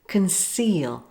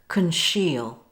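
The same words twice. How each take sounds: First: The C is said with an s sound. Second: The C is said with an sh sound. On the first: The speaker calls it right. "it is pronounced as a soft C, like this" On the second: The speaker calls it wrong.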